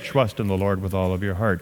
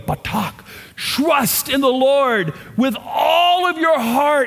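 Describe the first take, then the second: First: It is said flatly, without emotion. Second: It is said with strong emotion.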